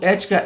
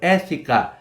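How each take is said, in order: First: It is said with ordinary Portuguese pronunciation. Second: It is said with Greek pronunciation.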